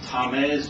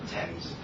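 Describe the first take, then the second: First: It is said with unusual, non-English sounds. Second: It is said with the usual English sounds. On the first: The speaker calls it wrong. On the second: The speaker calls it right.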